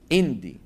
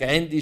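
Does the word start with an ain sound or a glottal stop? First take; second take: glottal stop; ain sound. First: The word starts with a glottal stop instead. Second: The word starts with a deep throat ain sound. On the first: "بيبدلوا العين همزة" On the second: "بدل ما يقول لك عندي"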